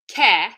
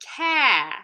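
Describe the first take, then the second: First: The vowel is short and flat. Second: The vowel is long with a wavy pitch. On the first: The speaker calls it wrong. "I'm not just saying care" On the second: The speaker calls it right. "I'm going care. And that intonation movement, that wave, is hinting towards the R"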